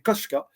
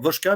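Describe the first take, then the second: First: The ending is said with a k sound. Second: The ending is said with a v sound. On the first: The speaker calls it right. "mais c'est Koshka" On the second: The speaker calls it wrong. "je l'appelais Va- Vachikovoshka"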